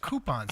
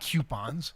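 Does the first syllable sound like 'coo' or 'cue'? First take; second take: coo; cue. First: The first syllable sounds like 'coo'. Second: The first syllable sounds like 'cue'. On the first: The speaker calls it right. "It's coupons, ... it's O U, C O U" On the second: The speaker calls it wrong. "not coupons"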